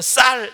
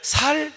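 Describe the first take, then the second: First: The first consonant is a tense s sound. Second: The first consonant is a plain s sound. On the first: This is how Chungcheong speakers say it. "충청도 사람들 저 같은 경우는 쌀 이렇게 발음하지만" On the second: This is how Gyeongsang speakers say it. "경상도 사람들은 쌀을 살 그러잖아요"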